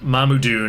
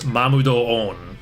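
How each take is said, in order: First: The ending is squeezed into one short syllable. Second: The ending is split into two separate vowel beats. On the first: The speaker calls it wrong. "the correct way to say it is not Mamudun" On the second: The speaker calls it right. "it's Mamudo-on"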